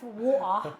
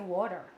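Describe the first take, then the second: First: It is said with an Australian accent. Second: It is said with an American-sounding accent. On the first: "Instead of water" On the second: "it sounds more American than Australian"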